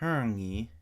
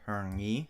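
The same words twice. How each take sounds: First: The first syllable has a high pitch. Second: The first syllable has a low pitch. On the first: The verb is positive. "if it has a high first tone, it is positive" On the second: The verb is negative. "if it has a low first tone, it is negative"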